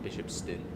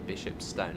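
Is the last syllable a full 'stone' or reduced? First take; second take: reduced; full. First: The last syllable is a reduced 'stun'. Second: The last syllable is a full 'stone'. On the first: The speaker calls it wrong. "not Bishopston" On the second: The speaker calls it right. "sort of stone, Bishopstone"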